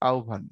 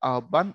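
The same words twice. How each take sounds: First: The word follows the standard pronunciation, not the spelling. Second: The word is sounded out exactly as it is spelled. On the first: "উচ্চারণটা ব্র্যাকেটে দেওয়া আছে এমন করে" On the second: "লেখার সময় লেখছে ধরো"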